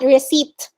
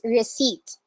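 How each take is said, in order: First: The P sound is pronounced in the middle. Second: The P sound is left out completely. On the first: The speaker calls it wrong. "not receipt" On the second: The speaker calls it right. "the P is not pronounced in this word"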